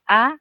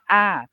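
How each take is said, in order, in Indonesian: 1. Nadanya tinggi. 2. Nadanya turun dari tinggi ke rendah. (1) "siang tri atau high tone yang kita sebutnya a" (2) "siang to atau falling tone yang kita sebutnya a"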